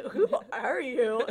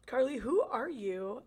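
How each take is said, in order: First: Louder, laughing. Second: Said in the usual way. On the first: Real, not acted. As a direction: repeat it through a laugh.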